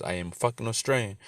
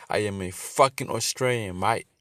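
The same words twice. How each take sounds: First: Said in the usual way. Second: Hammed-up Australian accent, a bit louder, leaning on mate; mock Aussie yell. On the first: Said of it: "you know, it says". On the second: Preacher mocking the border worker, in a hammed-up Australian accent. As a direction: play the angry Aussie bloke for laughs in an Australian accent. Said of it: "Nah, I'm playing by".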